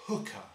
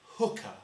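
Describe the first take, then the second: First: Said in the usual way. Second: Voiceless hooker. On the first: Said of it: "I'm gonna say the word". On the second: Shown as a demonstration. Harmonica teacher breathing the word, voiceless. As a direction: say hooker with no voice at all. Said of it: "not gonna say it with my voice".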